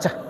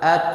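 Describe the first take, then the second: First: It ends in a ch-like sound instead. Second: It ends in a t released with breath. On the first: The speaker calls it wrong. "bukan cah" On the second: The speaker calls it right. "Kalau dimatikan at at at khusus angin"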